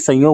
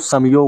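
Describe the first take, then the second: First: The first vowel is nasalized without a clear m. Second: The first syllable ends in a clear m sound. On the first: The speaker calls it wrong. "ना कि संयोग होता है" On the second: The speaker calls it right. "ये बिंदु का मतलब होता है मैं"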